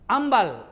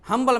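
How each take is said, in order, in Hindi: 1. यह शब्द बिना "h" की आवाज़ के शुरू होता है। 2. यह शब्द "h" की आवाज़ के साथ शुरू होता है। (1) "ये तीनों में पहले एन थी" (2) "हम्बल मैन बोलते हैं"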